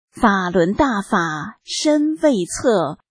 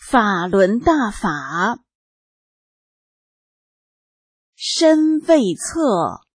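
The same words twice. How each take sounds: First: The line is read at a normal pace. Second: The line is read at a slower pace.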